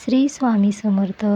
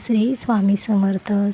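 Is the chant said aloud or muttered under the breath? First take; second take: aloud; aloud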